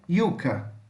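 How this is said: The word begins with a y sound. This is how it is said in Spain. "se você utilizar o espanhol da Espanha, vai ficar com som de I"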